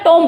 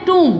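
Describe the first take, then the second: First: "टॉम" as tomb with a short o; "टॉम" with an o vowel; common mispronunciation. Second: "टूम" as toom, long oo, silent b; "टूम" closing on m with no b; correct pronunciation. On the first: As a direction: say "टॉम" the common wrong way, tom-b. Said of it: "टॉम बोलते हैं". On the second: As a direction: model "टूम" with a long oo, falling. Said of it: "इसको हम बोलते हैं". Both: Shown as a demonstration.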